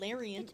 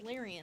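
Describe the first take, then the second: First: The name ends with a t sound. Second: The name ends without a t sound. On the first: The speaker calls it wrong. "I'm definitely not calling them" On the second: The speaker calls it right.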